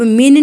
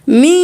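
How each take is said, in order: First: The n is pronounced fully and clearly. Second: The n is hidden as a nasal hum. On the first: The speaker calls it wrong. "अब मिन नहीं करना" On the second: The speaker calls it right. "इख्फा करेंगे"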